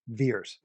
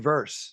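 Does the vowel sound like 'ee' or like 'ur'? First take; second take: ee; ur. First: The vowel is a long 'ee' sound. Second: The vowel is an 'ur' sound. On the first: The speaker calls it wrong. "how does V E R S spells Veers?" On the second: The speaker calls it right. "It should be verse"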